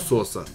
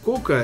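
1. Никнейм начинается со звука S. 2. Никнейм начинается со звука K. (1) "Если по-русски, то Соса" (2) "Если по-амерски, то Кока"

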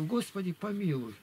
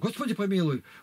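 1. Читается мягко и нежно. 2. Читается резко и напористо. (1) "считай потихоньку" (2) "как будто Бога за грудки берешь"

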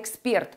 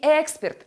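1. Ударение на последнем слоге. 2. Ударение на первом слоге. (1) "а эксперт" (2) "Не эксперт"

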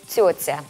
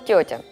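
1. Звуки «т» имеют небольшой шипящий призвук, похожий на «с». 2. Звуки «т» чёткие, без шипения.

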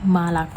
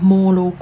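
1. สระที่ไม่เน้นเสียงออกเสียงเหมือน a คะ 2. สระที่ไม่เน้นเสียงออกเสียงเหมือน o คะ (1) "ถ้าตัวโอไม่ถูกเน้นเสียงนะคะจะออกเสียงเป็นตัวอา" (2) "ไม่อ่านเป็นโมโลโก"

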